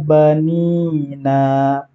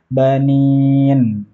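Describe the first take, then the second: First: The word ends with a final vowel after n. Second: The word ends abruptly on the n consonant. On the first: The speaker calls it right. "silahkan dibaca nun yang terakhir" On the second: The speaker calls it wrong. "Jangan dibaca banin"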